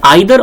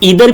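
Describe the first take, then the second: First: The first vowel sounds like 'eye'. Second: The first vowel sounds like 'ee'.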